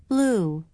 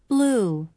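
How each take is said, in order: No difference in how they are said.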